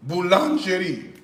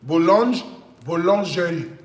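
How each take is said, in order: First: Boulangerie said in a hesitant attempt at a French accent; French accent try. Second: Boulangerie said again, reaching for a French accent; French accent retry. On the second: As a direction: take another pass at boulangerie in a French accent. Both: Shown as a demonstration. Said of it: "what's the French accent?".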